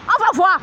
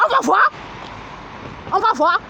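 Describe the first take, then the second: First: Said in the usual way. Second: Defiant outburst. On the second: Real, not acted. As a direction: throw "On va voir" out as a threat. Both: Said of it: "repeated defiant line".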